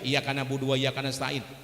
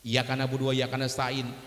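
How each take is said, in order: First: The y sound in iyyaka is short, single. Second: The same.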